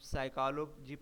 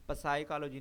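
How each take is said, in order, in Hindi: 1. शब्द की शुरुआत s की आवाज़ से होती है। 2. शब्द की शुरुआत p की आवाज़ से होती है। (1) "हम साइकोलॉजी पढ़ें" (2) "पसाइकोलॉजी ना पढ़ें"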